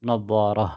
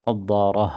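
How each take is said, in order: Both takes have the same delivery.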